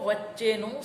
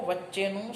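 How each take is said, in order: No difference in how they are said.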